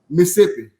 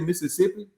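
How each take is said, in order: First: The word is shortened, with syllables dropped. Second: Every syllable of the word is pronounced clearly. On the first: This is how locals say it. "They say Mississippi" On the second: This is how outsiders say it. "people from Mississippi don't say Mississippi"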